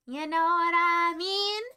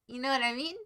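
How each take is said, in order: First: Slow, drawn-out, rising question; hammed-up, long-held questioning tone; exaggerated repeat. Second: Said in the usual way.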